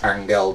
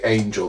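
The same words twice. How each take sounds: First: The name is said in a careful, native way. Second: The name is said in a mocking, anglicised way. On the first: It is meant as the proper name. The speaker calls it right. "I believe it's Angel Di Maria" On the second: It is said as a joke. The speaker calls it wrong. "I would normally just take the piss and say angel"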